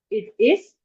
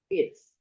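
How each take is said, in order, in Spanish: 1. Ambas palabras se dicen por separado, completas. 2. Las dos palabras se unen en una sola sílaba contraída.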